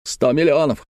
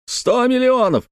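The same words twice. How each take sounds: First: Raised pitch, first outburst; agitated exclamation. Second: Very high-pitched, anguished outcry; extreme agitation. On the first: Uncle lamenting his lost fortune, agitated. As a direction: exclaim it, holding some back. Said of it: "повторял дядюшка Антифер". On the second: Uncle repeating his lost fortune, wildly agitated. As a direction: wail it far higher, beside yourself. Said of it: "в состоянии крайнего возбуждения". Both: Acted.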